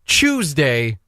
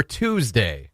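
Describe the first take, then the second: First: Tuesday said CHOOZ-day; Tuesday with choo. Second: Tuesday said TOOZ-day, slow; plain t, oo in Tuesday; Tuesday with too. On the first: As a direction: start Tuesday with a ch. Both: Shown as a demonstration. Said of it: "the opposite way".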